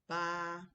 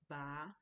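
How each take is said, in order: First: The syllable is said on a flat, level pitch. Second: The syllable is said with a changing pitch. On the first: It means the number eight. "the first tone is ba" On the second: It means to pull something out. "ba means to pull out something"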